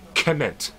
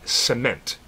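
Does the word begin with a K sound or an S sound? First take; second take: K sound; S sound. First: The word begins with a hard K sound. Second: The word begins with a soft S sound. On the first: The speaker calls it right. "If it were elvish, it would be cement. The letter C takes a hard K sound" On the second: The speaker calls it wrong. "it's not going to be pronounced C like cement"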